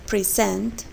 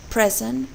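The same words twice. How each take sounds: First: "Present" with a weak first syllable and strong second; last-syllable stress. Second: "present" with a short open e in a stressed first syllable. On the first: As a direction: stress SENT in "Present", like pri-ZENT. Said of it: "the stress is on the last syllable". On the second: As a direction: stress PRE in "present", like PREZ-ent. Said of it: "the stress is on the first syllable". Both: Shown as a demonstration.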